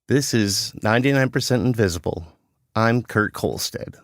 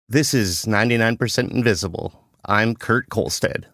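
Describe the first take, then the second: First: It sounds serious, without a smile. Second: It sounds serious with a smile in it.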